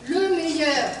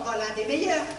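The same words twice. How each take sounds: First: Insistent correction, weight on "Le" in "Le meilleur"; stress on LE. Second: Said in the usual way. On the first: Acted. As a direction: set "Le" apart as the one and only. Correcting the other patient's wording. (insister sur « Le » pour corriger)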